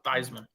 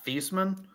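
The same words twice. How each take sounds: First: The first syllable rhymes with Heisman. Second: The first syllable does not rhyme with Heisman. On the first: It was changed to match an award's name. "because he was in the Heisman running, he's like, yeah, yeah, pronounce it" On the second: This is the family's original pronunciation. "it's actually pronounced uh"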